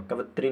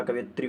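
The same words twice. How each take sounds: First: कवित्री in three syllables, no "ya"; wrong form. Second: कवियत्री with a "ya" glide before "tri"; correct form. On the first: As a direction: drop the य sound in कवित्री. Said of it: "कवित्री नहीं होता". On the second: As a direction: sound the य in कवियत्री. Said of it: "कवियत्री होता है". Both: Shown as a demonstration.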